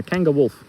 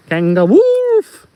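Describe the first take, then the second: First: Said in the usual way. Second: Loud, high, slow howl; howled made-up animal name; wolf-howl punchline. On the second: Acted. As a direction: stretch the last word into a wolf howl.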